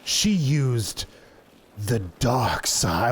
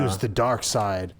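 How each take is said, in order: First: It is said in a dramatic, ominous way. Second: It is said in a plain, ordinary way.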